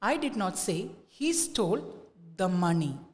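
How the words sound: The stress falls on the word money. "Now let us give the stress to money"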